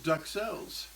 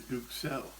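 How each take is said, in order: First: The first syllable sounds like 'duck'. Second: The first syllable sounds like 'duke'. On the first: The speaker calls it wrong. "it's a horrible pronunciation of the word" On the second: The speaker calls it right. "that's a better pronunciation"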